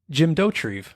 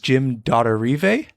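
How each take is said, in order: First: The surname is said in a plain, simple way. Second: The surname is said in a fancier, French-like way. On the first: The speaker calls it right. "he pronounces it" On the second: The speaker calls it wrong. "we pronounced his name wrong probably ... I thought it was like French"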